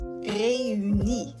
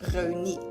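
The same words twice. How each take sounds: First: The two vowels fall in separate syllables. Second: The two vowels merge into one syllable. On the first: The speaker calls it right. "They create a syllable border" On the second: The speaker calls it wrong. "instead of"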